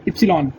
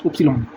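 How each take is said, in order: First: "इप्सिलॉन" opened with an i sound, ip-si-lon; ipsilon with i. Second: "उपसिलॉन" opened with a u sound, up-si-lon; upsilon with u. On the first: Teacher saying the German letter Y first with i. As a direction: start "इप्सिलॉन" on a short i. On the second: Teacher correcting the German letter Y to u. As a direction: start "उपसिलॉन" on a short u. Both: Shown as a demonstration. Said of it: "बोलने में आएगा उपसिलॉन".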